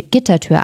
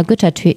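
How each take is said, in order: First: Said in the usual way. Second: Güttertür said with a rounded ü in the first syllable; a slip, Güttertür with ü instead of i; misread word. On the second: A narrator's reading. Narrator misreads the gate word, Güttertür with ü.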